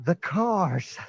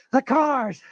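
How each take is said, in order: First: Said in the usual way. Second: Much higher and louder panic; fearful outburst. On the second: Acted. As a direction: blurt it out in terror. Repeated line escalating.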